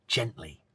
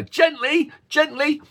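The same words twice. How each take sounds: First: Said in the usual way. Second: Parent saying gently. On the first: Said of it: "What does that mean to you?". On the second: Retold or imitated. Parent cautioning a child with a puppy or toy, high sing-song. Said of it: "toy, or whatever".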